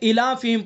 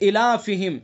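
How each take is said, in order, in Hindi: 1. दूसरा शब्द संक्षिप्त है, 'hi' अक्षर गिरा दिया गया है। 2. दूसरा शब्द पूरा है, 'hi' अक्षर को खींचकर बोला गया है। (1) "बहुत से लोग जल्दी में क्या पढ़ देते हैं" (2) "इसको खड़े ज़ेर को खींचना है"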